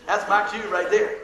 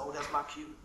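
First: Slow and louder, "my cue" leaned on; emphatic repeat. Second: Said in the usual way. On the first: Shown as a demonstration. Preacher repeating to the congregation that his chance has come, slow emphasis. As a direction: land "That's my cue right there" with emphasis.

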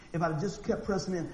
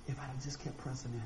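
First: Said in the usual way. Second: "if I'd have just kept pressing in" dropped soft and low in pitch, a hushed sigh of regret; quiet regret. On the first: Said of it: "repeat of the regret line". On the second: Retold or imitated. Preacher imagining his regret after death, softly and sadly. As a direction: murmur it like a man looking back too late.

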